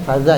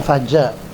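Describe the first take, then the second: First: The middle consonant is a soft z-like sound. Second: The middle consonant is a j sound. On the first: The speaker calls it right. "ini faza ya" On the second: The speaker calls it wrong. "Jangan faja"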